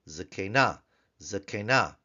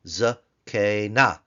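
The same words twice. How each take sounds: First: Said in the usual way. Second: "Zakena" slowly as za, kay, na, loud; three open syllables. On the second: Shown as a demonstration. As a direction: pull "Zakena" apart syllable by syllable. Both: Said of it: "open syllables together".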